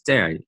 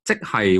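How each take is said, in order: First: It is said fast, contracted to one syllable. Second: Both syllables are said in full.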